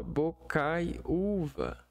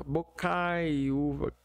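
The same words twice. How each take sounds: First: "Bocai, uva" split in two parts; syllable split. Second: "Bocai, uva" with stress on cai; syllable split. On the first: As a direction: pause between Bocai and uva. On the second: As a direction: lean on cai, then uva. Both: Shown as a demonstration. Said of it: "que é a sílaba tônica".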